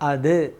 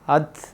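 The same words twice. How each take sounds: First: The final d ends with an echoing bounce. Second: The final d ends short without any echo. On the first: The speaker calls it right. "അത് എന്ന് മുഴങ്ങണം" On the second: The speaker calls it wrong. "അത് എന്നല്ല"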